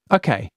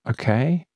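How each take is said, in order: First: Resigned okay. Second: Hesitant okay. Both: Acted. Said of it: "calculating the likelihood".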